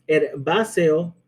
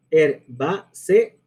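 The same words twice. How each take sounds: First: Herbáceo with the final e-o run together; slow herbáceo, last vowels joined; merged ending. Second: HERBÁCEO drawn out as her-bá-ce-o; slow syllable-by-syllable herbáceo; split into syllables. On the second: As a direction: say herbáceo very slowly in four separate beats. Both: Shown as a demonstration. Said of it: "Cuatro sílabas".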